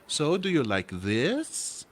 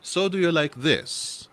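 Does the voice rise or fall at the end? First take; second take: rise; fall. First: The voice rises at the end. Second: The voice falls at the end.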